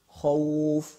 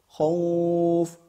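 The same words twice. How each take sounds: First: The vowel is held for two counts. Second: The vowel is held for four counts.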